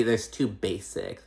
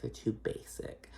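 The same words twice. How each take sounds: First: Said in the usual way. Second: Whispered, slow catty repeat; whispered echo. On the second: Shown as a demonstration. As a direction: hiss it again as a catty aside. Whispered echo of own line.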